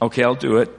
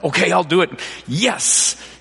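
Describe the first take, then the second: First: It is said with weary resignation. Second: It is said with eager excitement.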